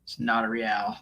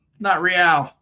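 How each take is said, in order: First: Said in the usual way. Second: Real punched higher and louder with a fall; emphatic correction, Real stressed. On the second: Shown as a demonstration. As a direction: hit the word Real hard.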